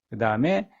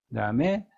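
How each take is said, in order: No difference in how they are said.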